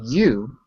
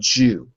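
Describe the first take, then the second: First: The word begins with a y sound. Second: The word begins with a j sound. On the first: The speaker calls it right. "Instead of saying you" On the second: The speaker calls it wrong.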